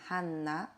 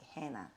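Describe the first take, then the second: First: The name is said with a Korean pronunciation. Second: The name is said with an American pronunciation. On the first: "here in Korea we pronounce like a Hanna" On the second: "in American way call me like Hannah"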